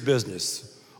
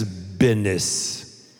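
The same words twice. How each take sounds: First: It is said in a standard accent. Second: It is said in a Texan accent.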